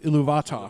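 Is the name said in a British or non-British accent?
British. It is said with a British accent. "the British way"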